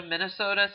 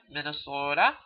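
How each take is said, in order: First: Said in the usual way. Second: Mock Minnesotan stretching "Minnesota"; bad Minnesota accent. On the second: Lecturer mimicking how Minnesotans say "Minnesota", bad Minnesota accent. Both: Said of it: "I do a bad accent".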